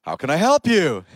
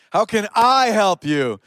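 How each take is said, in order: First: "help" punched late in the question; stress on HELP. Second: "I" drawn out high and strong; stress on I. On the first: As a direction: land hard on "help", then let "you" fall. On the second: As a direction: slowly hit "I" as the key word. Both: Shown as a demonstration. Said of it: "wherever you put the emphasis".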